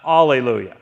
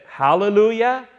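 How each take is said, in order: First: "Alleluia" opening on a bare "ah", falling low and loud; Alleluia without H. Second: "Hallelujah" begun with a clear H, ending on a rise. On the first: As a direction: drop the H from "Alleluia" and let it fall. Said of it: "and not". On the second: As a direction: sound the H at the front of "Hallelujah", pitched up. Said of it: "I said, "Hallelujah," and not "Alleluia". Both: Shown as a demonstration.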